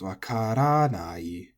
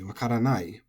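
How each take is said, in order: First: The accent falls on ra, before nai. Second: The accent falls on the final nai. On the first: The speaker calls it right. "the accent goes before the not in the nai" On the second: The speaker calls it wrong. "put the accent on the nai because that's the long syllable"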